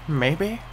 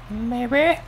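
First: Small hopeful lift on "Maybe?", a little higher; "Maybe?" as a gentle hopeful question. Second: "Maybe?" pitched much higher, squeaky and rising; "Maybe?" shot up high in desperate hope; pleading maybe. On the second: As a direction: beg the game with a high "Maybe?". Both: Real, not acted. Hoping for a crate, rising.

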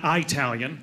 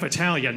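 First: "Italian" said as eye-TAL-yun; mispronounced Italian. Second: Said in the usual way. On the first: Shown as a demonstration. Comedian mimicking people who get it wrong, "Italian" as eye-talian. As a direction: open "Italian" with a long letter I. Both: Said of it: "You don't say the letter I".

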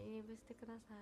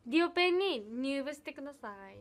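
First: 「入部してください」 said again much softer; soft repeat. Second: Said in the usual way. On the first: Real, not acted. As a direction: drop 「入部してください」 to a near-murmur. Invites fans, then repeats softly. (「入部してください」を小声でつぶやく)

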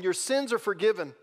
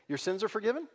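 First: Said in the usual way. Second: Your sins are forgiven tossed off with a doubtful upward lilt; sceptical rising question. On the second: Shown as a demonstration. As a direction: say it like an easy cheap claim. Mocking how easy to say.

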